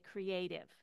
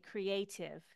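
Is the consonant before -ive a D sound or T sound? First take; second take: D sound; T sound. First: The consonant before -ive sounds like a D. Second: The consonant before -ive sounds like a T. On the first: "or do I say it like a D?" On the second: "Do I say it like a T"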